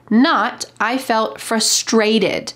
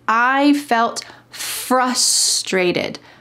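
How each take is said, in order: First: The stress is on a later syllable of frustrated. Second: The stress is on the first syllable of frustrated. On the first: The speaker calls it wrong. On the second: The speaker calls it right. "The emphasis is on the beginning of this word. It should be"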